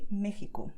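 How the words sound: The h-like sound in the middle is very soft. The speaker sounds Mexican. "most Mexicans would say Mexico, so with the h sound very soft"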